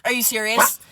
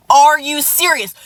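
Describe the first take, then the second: First: Said in the usual way. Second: Higher, louder, slow indignant "Are you serious?" with the weight on "Are"; retold outrage. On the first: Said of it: "I went". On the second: Telling off the ex who texted her, louder and slower. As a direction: lean hard on "Are" in disbelief. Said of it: "And so I was like".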